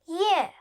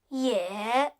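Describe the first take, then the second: First: The pitch falls sharply from high. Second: The pitch dips low, then rises.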